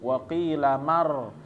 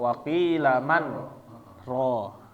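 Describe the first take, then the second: First: The n merges straight into the r sound. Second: A brief breathless stop keeps the n separate. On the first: "dia nyambung waqilamar" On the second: "ini karena saktah"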